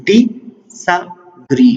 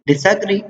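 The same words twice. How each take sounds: First: ډي سا ګري as three separate beats, a pause after each; syllable by syllable. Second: Said in the usual way. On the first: Shown as a demonstration. Teacher breaking a word down for learners, ډي سا ګري syllable by syllable. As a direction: slowly split it: ډي, pause, سا, pause, ګري. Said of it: "تھری سیلیبل شول". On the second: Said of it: "په دې کې تاسو ګورئ".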